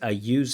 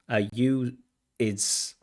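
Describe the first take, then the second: First: The word use ends cleanly with a z sound. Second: The word use is split into two syllables. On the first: The speaker calls it right. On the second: The speaker calls it wrong.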